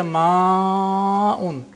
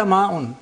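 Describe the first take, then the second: First: "ma'un" with the a held very long before a clear glottal stop; Quranic lengthening. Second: Said in the usual way. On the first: Shown as a demonstration. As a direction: stretch "ma'un" into maaaa-un. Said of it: "But in the Quranic Arabic we say ma'un". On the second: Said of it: "In normal Arabic we say ma'un".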